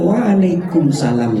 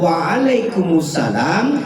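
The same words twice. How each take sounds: First: It runs straight into 'salam' with no article. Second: It has an 'us' sound before 'salam'. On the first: The speaker calls it wrong. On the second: The speaker calls it right.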